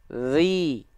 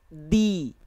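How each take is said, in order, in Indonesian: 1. Bunyi konsonannya mengalir terus. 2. Bunyi konsonannya tertahan dan langsung berhenti. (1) "Tuh suaranya ngalir kan?" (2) "Kalau dia digigit jadinya gini. Nggak ngalir suara"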